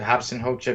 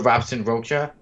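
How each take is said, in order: First: Both names start with an H sound. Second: Both names start with an English R sound. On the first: "I pronounce it Hobson Hocha because he is Brazilian" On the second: "many of you may read and, and pronounce his name as Robson Hocha or Robson Rocha"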